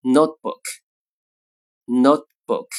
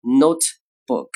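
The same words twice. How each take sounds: First: Notebook slow with the t held silent before b; lost plosive. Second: Notebook slow, releasing the t fully; careful full notebook. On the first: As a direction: hold the t, don't release it. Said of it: "口语中呢常读成". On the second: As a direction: spell out every stop in notebook. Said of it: "完整读这个单词读成". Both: Shown as a demonstration.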